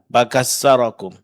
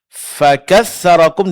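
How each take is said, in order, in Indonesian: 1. Konsonan pertama terdengar seperti b. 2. Konsonan pertama adalah f yang jelas, dengan hembusan napas.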